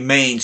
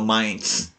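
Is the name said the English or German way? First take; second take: English; German. First: The name has an English-style pronunciation. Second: The name has a German-style pronunciation. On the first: The speaker calls it wrong. "you don't say Mainz" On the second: The speaker calls it right. "you go Mainz"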